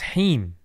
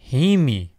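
First: The word stops cleanly on the m sound. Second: The word ends with an extra vowel after m. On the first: The speaker calls it right. "If you're doing waqf, it's heem" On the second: The speaker calls it wrong. "how did he end it? Heemi"

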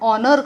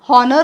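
First: The word begins directly with a vowel. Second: The word begins with an h sound. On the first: The speaker calls it right. "ओपासून सुरुवात करतो, उच्चार त्याचा आपण ऑनर करतो" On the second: The speaker calls it wrong. "एच हॉनर म्हणत नाही इथे"

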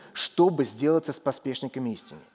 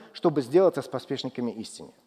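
Both takes have the same delivery.

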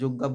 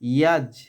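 First: The word begins with a hard 'j' sound. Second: The word begins with a soft 'y' sound. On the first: The speaker calls it wrong. "আমরা যজ্ঞা বলবো না" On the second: The speaker calls it right. "আমরা বলবো ইয়াজ"

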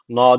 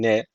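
First: The syllable is said with a thick, open vowel. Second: The syllable is said with a thin, fronted vowel. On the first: The speaker calls it wrong. "Na değil bu. Na demiyoruz kesinlikle" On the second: The speaker calls it right. "Bakın ne ince"

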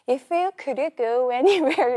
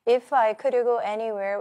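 First: It is read with lively, musical rhythm. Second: It is read flatly, without rhythm.

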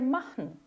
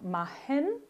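First: The final -en is reduced to a light nasal. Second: The final -en is pronounced fully and heavily. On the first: The speaker calls it right. "o jeito que deve ser é machen" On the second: The speaker calls it wrong. "que é o jeito que não deve ser"

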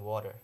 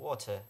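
First: It is said in an American accent. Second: It is said in a British accent. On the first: "the Americans drink water" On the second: "the British drink water"

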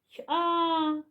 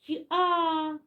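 The two takes are said the same way.

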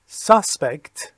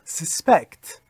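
First: The stress is on the first syllable. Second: The stress is on the second syllable. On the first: It is used as a noun. "اولی اسم بود" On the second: It is used as a verb. "دومی فعل هست"

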